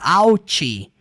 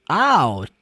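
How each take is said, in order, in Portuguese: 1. O T final é pronunciado claramente. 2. O T final é omitido ou mal se ouve. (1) "Você não fala out" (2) "E tem esse t no final e às vezes nem vai falar"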